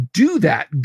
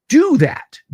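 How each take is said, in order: First: Said in the usual way. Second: Emphatic shout. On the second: Real, not acted.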